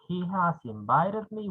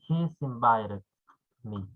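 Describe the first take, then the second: First: The word 'has' is said in full. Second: The word 'has' is contracted to 's. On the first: "instead of saying" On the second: "we can say"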